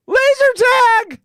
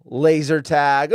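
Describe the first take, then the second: First: Much higher and louder sarcastic shout of Laser tag; hammed-up outraged yell; mock alarm. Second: Said in the usual way. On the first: Host mocking the school's overreaction, hammed-up outraged yell.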